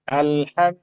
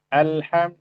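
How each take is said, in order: The two takes are said the same way.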